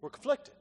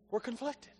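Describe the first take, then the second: First: Said in the usual way. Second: Quieter, sobering echo; hushed confession; soft repeat. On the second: Shown as a demonstration. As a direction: let it land softly.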